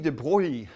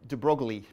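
First: The name is said with French pronunciation. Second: The name is said with English pronunciation. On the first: The speaker calls it right. "So this is Louis de Broglie" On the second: The speaker calls it wrong. "although I pronounce it de Broglie. That's not the correct pronunciation"

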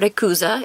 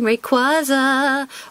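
First: The name is said with a Japanese pronunciation. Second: The name is said with an English pronunciation.

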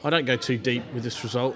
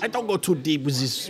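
First: It is said in his normal voice. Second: It is said in a put-on voice.

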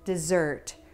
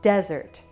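First: The stress is on the second syllable. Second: The stress is on the first syllable. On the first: The speaker calls it right. "Dessert has stress on the second syllable" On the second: The speaker calls it wrong. "if you place the stress on the first syllable, it might become desert"

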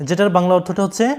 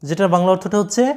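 Both takes have the same delivery.

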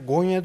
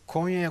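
First: The word starts with a voiced g sound. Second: The word starts with a hard k sound. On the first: "Konyalı olarak biz Konya'ya Gonya diyoruz" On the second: "biz Konya'ya Gonya diyoruz"

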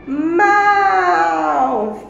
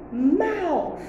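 First: The word is said more loudly. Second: The word is said at normal volume.

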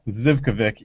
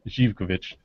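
First: The name begins with a plain Z sound. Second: The name begins with a different sound. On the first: The speaker calls it wrong. "It's not pronounced Zivkovic, even though it's spelled with a Z" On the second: The speaker calls it right. "It's Zivkovic"

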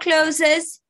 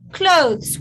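First: The word is said as two syllables. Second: The word is said as one syllable. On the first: The speaker calls it wrong. "not clothes" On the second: The speaker calls it right. "one word"

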